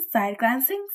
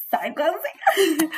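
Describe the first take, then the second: First: Said in the usual way. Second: Higher, slow, stretched-out teasing delivery; playful sly drawl. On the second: Pretend. Teller acting out sneaking glances at the stranger, slow sly drawl. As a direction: draw it out like a sneaky sideways look.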